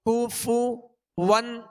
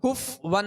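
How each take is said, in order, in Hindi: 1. f के बाद एक पूरा, गोल u आता है। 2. f के बाद का स्वर गिरा दिया जाता है। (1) "दोनों के पेश ये सही से अदा करेंगे, होंठों को गोल भी करेंगे" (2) "इसको बाज लोग पढ़ते हैं कुफ वन, तो कुफ वन नहीं"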